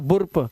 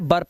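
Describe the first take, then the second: First: The vowel is a rounded 'oo' sound. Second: The vowel is a central 'er' sound. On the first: The speaker calls it wrong. "अब इसे बुर्प मत पढ़ना" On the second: The speaker calls it right. "इसे पढ़ना है बर्प"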